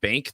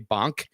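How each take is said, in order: First: It is said with an American vowel. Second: It is said with a Filipino open vowel.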